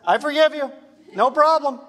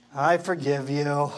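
First: Higher, louder, bright "I forgive you"; eager forgiveness. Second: Lower, reluctant "I forgive you"; grudging forgiveness. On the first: Pastor showing passionate forgiveness, quick and joyful. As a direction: toss off "I forgive you. No problem" gladly. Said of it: "the more passion you have for Jesus, it's like this". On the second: Pastor voicing a reluctant forgiver, grudging and low. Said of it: "the more passion you have for Jesus". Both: Shown as a demonstration.

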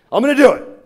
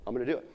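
First: Loud, high imitated burst of resolve; all fired up. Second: Soft, tentative imitated resolve; quiet resolve. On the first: Smoker commits to calling his daughters, all fired up. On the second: Smoker talks himself into the call, quiet resolve. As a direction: say it under your voice, working up to it. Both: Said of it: "He gets all fired up".

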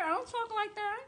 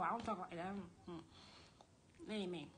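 First: High, put-on sugary voice; high-pitched mock sweetness; mock sweet-talker. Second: Low, muttered denial; much softer, deeper throwaway line; low aside. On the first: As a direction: mimic the sweet talk while disowning it. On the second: Real, not acted. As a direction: drop the act and disown it under your breath. Drops the mock voice, disowning it.

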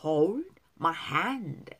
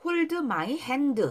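First: "hold my hand" slow, d's barely released; weak d sounds. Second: "hold my hand" higher, with eu after each d; wrong Korean-style pronunciation. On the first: Teacher corrects learners, "hold my hand" with faint d's. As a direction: draw out "hold my hand", swallowing each final d. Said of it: "드 발음 약한 거예요". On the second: Teacher shows the mistake, "hold my hand" with added eu vowels. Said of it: "아닙니다". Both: Shown as a demonstration.

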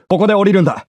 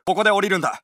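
First: The same order, louder; louder version of the order; louder take. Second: Said in the usual way. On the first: Acted. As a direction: say it over the gunfire.

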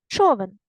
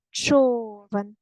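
First: Said in the usual way. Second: Човен with a long drawn-out first syllable; stress on ЧО. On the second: Shown as a demonstration. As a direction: stretch the О in Човен. (Човен з протяжним наголосом на ЧО) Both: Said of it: "Поставте наголос".

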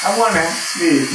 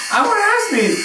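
First: Said in the usual way. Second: Much higher, pleading; insistent high demand. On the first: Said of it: "repeated louder". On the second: Real, not acted. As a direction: insist on it, pitch way up. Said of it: "repeated insistently".

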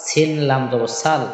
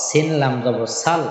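Both takes have the same delivery.

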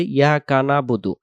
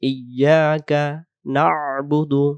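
First: "ইয়াকা নাবুদু" spoken plainly as yaka nabudu; common mistaken reading. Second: "ইয়াকা না'বুদু" slow, iy-yaa-ka and throaty ain; correct reading. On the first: Teacher imitating learners' mistake, "ইয়াকা নাবুদু" as short yaka nabudu. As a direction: drop the opening i and the ain in "ইয়াকা নাবুদু". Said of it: "আমরা বলে ফেলি". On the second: Teacher modelling the right reading, "ইয়াকা না'বুদু" slow with ain. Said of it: "সেই শুদ্ধ উচ্চারণ হবে". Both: Shown as a demonstration.

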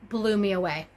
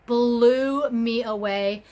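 First: Said in the usual way. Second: "Blew me away" repeated slowly, with a push on "Blew"; emphatic repeat. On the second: Shown as a demonstration. Vlogger telling viewers how impressed she was, slow emphatic repeat.

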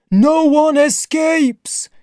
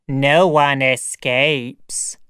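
First: Loud, very high drawn-out chant; slow, high communal cry; crowd echo. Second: Very slow, drawn-out monster pronouncement; heavy, stretched-out creature voice; sayer of the law. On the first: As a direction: echo it as a clamouring mob, pitched way up. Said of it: "repeated the rest of the crowd". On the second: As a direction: intone it slowly like a grim law. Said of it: "said the sayer of the law". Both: Acted.

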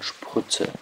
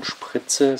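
First: Sprütze with rounded ü for i; rounded vowel. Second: Spritze with unrounded i; unrounded vowel. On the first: Lecturer demonstrating Rundung to students, Sprütze with rounded ü. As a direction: push the lips forward on the ü of Sprütze. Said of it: "die Lippen vorstülpt". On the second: Lecturer contrasting forms for students, Spritze with unrounded i. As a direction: keep the lips spread on the i of Spritze. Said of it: "nicht von Spritze". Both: Shown as a demonstration.

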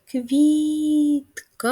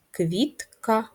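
First: "Квітка" said slow and high as "Квіт-ка"; split into syllables. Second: Said in the usual way. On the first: Shown as a demonstration. Teacher sounds out "Квітка" for the kids. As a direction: stretch "Квітка" into two loud syllables. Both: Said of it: "Склади два".

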